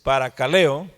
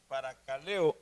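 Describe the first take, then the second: First: Paracaleo said firmly and louder; assured, projected teacher delivery; confident announcement. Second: Paracaleo said softly, feeling it out; trying out a word. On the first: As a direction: announce the word clearly to a class. Announces the checked Greek word. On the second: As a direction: quietly sound out the word to oneself. Checking the Greek word before announcing it. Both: Real, not acted.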